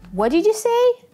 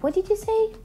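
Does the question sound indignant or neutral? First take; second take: indignant; neutral. First: The tone is sharp and indignant. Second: The tone is neutral and inquiring. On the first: The other person said something clearly out of line. "Прозвучит так, как будто собеседник сказал явно что-то не то" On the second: The speaker simply did not hear and is asking again. "Прозвучит так, как будто вы просто не услышали и переспрашиваете"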